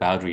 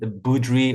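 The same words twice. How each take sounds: First: The name is said with English pronunciation. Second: The name is said with non-English pronunciation. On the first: This is how most people say the name in English. "everyone pronounces it Boudry in English" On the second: This is the name's original pronunciation. "it is indeed Boudry"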